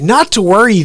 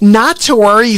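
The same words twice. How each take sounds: First: It is read in a plain voice. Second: It is said in a mocking, lying voice.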